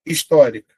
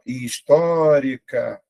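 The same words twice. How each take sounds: First: Said in the usual way. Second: HISTÓRICA said slowly, with a long held stressed Ó; slow teacher's sounding-out of "histórica", stressed vowel lengthened; drawn-out syllables. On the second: Shown as a demonstration. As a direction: stretch "histórica" syllable by syllable, leaning on TÓ. Teacher stretches word to show stressed syllable.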